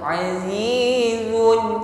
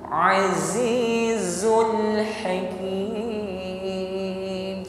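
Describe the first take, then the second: First: The z is weak with no hiss. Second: The z has a clear hissing sound. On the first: The speaker calls it wrong. "Jangan diucapkan dengan lemah sehingga shafir atau bunyi desisnya hilang" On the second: The speaker calls it right. "Tampakkan shafir"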